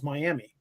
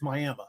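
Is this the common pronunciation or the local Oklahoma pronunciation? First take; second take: common; local. First: The name is said in the widely known way. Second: The name is said in the local Oklahoma way. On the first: This is how most people say the name. "we all know that M I A M I spells Miami" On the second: This is how locals in Oklahoma say the name. "Not in Oklahoma, it's Miami"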